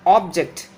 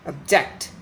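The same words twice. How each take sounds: First: OBject, open first syllable; noun stress. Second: ObJECT, reduced first syllable; verb stress. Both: Shown as a demonstration. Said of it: "difference between the pronunciation of the noun and the verb".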